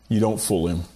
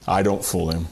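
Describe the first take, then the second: First: YOU said with weight, the rest falling away; stress on you. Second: "I" pressed hard, then dropping low; stress on I. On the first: Preacher to congregation, stress on "You". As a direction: lean on "You" to point at the listener. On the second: Preacher confessing to congregation, stress on "I". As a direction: lean on "I" to turn the point on himself. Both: Shown as a demonstration.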